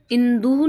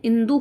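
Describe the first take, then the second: First: इंदु with stretched oo, in-dooo; wrong long ending. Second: इंदु with short final u; correct short ending. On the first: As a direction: drag out the end of इंदु. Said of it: "नहीं होता है". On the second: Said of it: "छोटा आएगा इसमें". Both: Shown as a demonstration.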